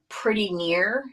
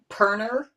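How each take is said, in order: First: Both words are said in full. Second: The words are squashed into one short word. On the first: This is the usual form. The speaker calls it right. "instead of saying pretty near" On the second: This is how a Southern grandmother said it. The speaker calls it wrong. "she would say perner"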